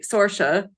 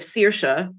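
First: The name is read as if spelled in English. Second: The name is pronounced with Irish sounds. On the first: The speaker calls it wrong. "if you say Saoirse instead of" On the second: The speaker calls it right. "it's Saoirse, means freedom in Irish. That's how you say it"

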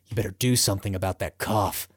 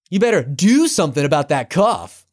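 First: It is said in a dark, threatening way. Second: It is said casually, without menace. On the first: It hints that something bad is coming. The speaker calls it right. "he's supposed to be ominous" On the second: It is a harmless remark. The speaker calls it wrong. "the wrong stressors on all the wrong words"

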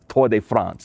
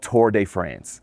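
First: It is said with an attempted French accent. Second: It is said with a plain English accent.

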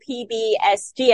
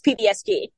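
First: The first letters are said at an even pace. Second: The first letters are run together quickly. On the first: The speaker calls it wrong. "I've been saying PBSG" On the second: The speaker calls it right. "The first part of the abbreviation is evidently said quickly"

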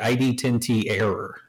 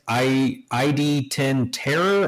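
First: It is read as 'ten tee error', ending in 'error'. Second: It is read as 'ten terror', ending in 'terror'. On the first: The title is a joke about an idiot error. The speaker calls it right. "or is it ID-10T Error?" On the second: The title is a play on the word terror. The speaker calls it wrong. "I read it as ID-10 Terror"

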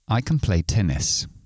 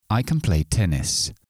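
First: Can is weak and quick, like kun. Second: Can is weak and quick, like kun.

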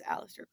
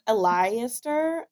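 First: The name is said in an American pronunciation. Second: The name is said in a Gaelic-style pronunciation. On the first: "the correct way to pronounce it as an American" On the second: "I think it's like Aleister"

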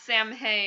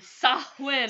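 First: It sounds like 'sam-hain', with 'm' and 'h'. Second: It sounds like 'sow-in', with no 'm' or 'h'. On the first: The speaker calls it wrong. "Not Samhain" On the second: The speaker calls it right. "[name] is going to correctly pronounce Sawin"

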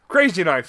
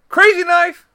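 First: It is said in a normal voice. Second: It is said in a put-on character voice.

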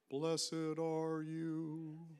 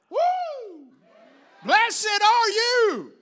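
First: It is said quietly and solemnly. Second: It is shouted loudly and excitedly.

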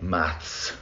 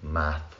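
First: The word ends with an s sound. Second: The word ends without an s sound.

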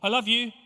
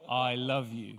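First: It is said quickly and offhandedly. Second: It is said slowly and tenderly.

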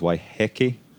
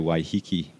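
First: It is said with Maori vowel sounds. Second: It is said with anglicized English vowel sounds. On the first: This is the original, proper pronunciation. "properly the Maori, ... the Maori pronunciation is Waiheke" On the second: This is the common everyday pronunciation. "9 times out of 10 you'll hear people say Waiheke"

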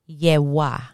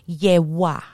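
The two takes are said the same way.

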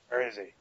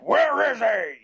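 First: It is a subdued, lower, toned-down Batman voice. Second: It is an exaggerated, goofy gravelly Batman voice.

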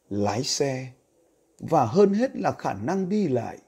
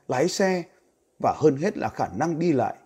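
First: It is read slowly. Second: It is read fast.

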